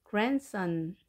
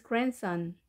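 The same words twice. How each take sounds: First: "grandson" with an audible D, grand-son; D sounded. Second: "grandson" as gran-son, no D; D dropped. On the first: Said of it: "grandson이지만 D 발음을 하지 않고". ("grandson"의 D를 살려서 발음) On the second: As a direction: glide from N to S in "grandson". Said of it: "D 발음을 하지 않고". ("grandson"을 D 없이 발음) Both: Shown as a demonstration.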